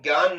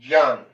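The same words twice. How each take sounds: First: The word begins with a g-like sound. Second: The word begins with a j-like sound. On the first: The speaker calls it wrong. "इसका वास्तविक उच्चारण ज्ञान नहीं होता है" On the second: The speaker calls it right. "इसका वास्तविक उच्चारण होता है ज्ञान"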